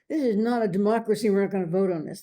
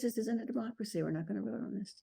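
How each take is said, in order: First: It is said in a harsh, domineering tone. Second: It is said in a calm, matter-of-fact tone. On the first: The speaker is abusing their authority. The speaker calls it wrong. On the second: The speaker is simply stating the facts. The speaker calls it right.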